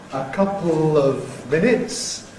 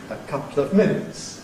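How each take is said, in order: First: The l in 'couple' forms its own syllable. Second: The l in 'couple' loses its own syllable.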